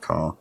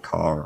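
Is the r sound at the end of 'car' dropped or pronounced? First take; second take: dropped; pronounced. First: The final r sound is dropped. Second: The final r sound is clearly pronounced. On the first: "I say car" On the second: "I don't say car"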